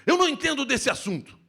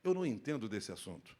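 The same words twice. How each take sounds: First: Louder, higher, stressing não; insistent, raised voice; emphatic. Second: Lower, softer, gentle; subdued low voice. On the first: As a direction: say it forcefully, hitting não. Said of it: "Eu posso dizer para vocês assim". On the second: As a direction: say it quietly and calmly. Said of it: "E eu posso dizer". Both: Shown as a demonstration.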